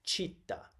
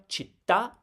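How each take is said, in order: First: Città stressed on the opening "chit", "ta" left weak; wrong first-syllable stress. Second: Città with the last syllable TA punched high; stress on final syllable. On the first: Teacher showing what the word is not, first-syllable stress. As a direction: hit the first syllable of città, drop the last. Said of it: "is not città". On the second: Teacher reminding the class of the right stress, final-syllable stress. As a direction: land hard on the final "ta" of città. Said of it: "Remember, città is not città". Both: Shown as a demonstration.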